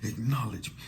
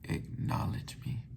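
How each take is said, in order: First: Deep, forceful and commanding, with bass in it. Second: Soft, sad and pleading, with no deep bass. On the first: He is giving orders to everyone. "he ain't say it like he was telling everybody else" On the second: He is seeking approval from an older brother. "He said it like a sad little brother trying to get the approval of the big brother"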